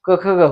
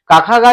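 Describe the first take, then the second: First: The syllables end in short 'a' vowels. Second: The syllables end in long 'aa' vowels. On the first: The speaker calls it right. "क ख ग होता है" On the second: The speaker calls it wrong. "काखा गा नहीं होता"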